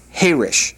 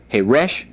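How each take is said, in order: First: "Harish" with the first syllable stressed, falling at the end; "Harish" front-stressed, dropping away on "rish". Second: "Harish" with the second syllable stressed, slow and rising; "Harish" said slowly, weight on "rish"; stress on last syllable. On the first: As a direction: punch the "Ha" in "Harish". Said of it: "with the accent on the first syllable means quiet". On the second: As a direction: lean on the end of "Harish". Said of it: "with the accent on the last syllable means deaf". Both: Shown as a demonstration.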